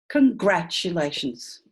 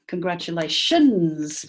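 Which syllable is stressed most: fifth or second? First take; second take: second; fifth. First: The strongest stress is on the second syllable. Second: The strongest stress is on the fifth syllable. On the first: "There's a lot of votes for two"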